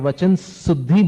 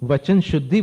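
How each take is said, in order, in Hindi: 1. 'shuddhi' की शुरुआत सादी 's' ध्वनि से होती है। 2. 'shuddhi' की शुरुआत 'sh' ध्वनि से होती है। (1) "वो उच्चारण में अशुद्धि हो गई" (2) "वचन शुद्धि बोल रहे हैं आप"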